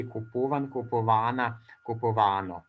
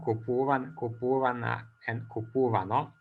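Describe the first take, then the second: First: "kupovana, kupovano" stressed on long -va-, after "kupuvan" on -pu-; "kupuvan, kupovana, kupovano" with the accent shifting rightward to -va-; mobile accent. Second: "kupuvan, kupuvana, and kupuvano" each stressed on the stem's -pu-; stem accent. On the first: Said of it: "through secondary mobility modified". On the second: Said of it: "original accent on the stem". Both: Shown as a demonstration.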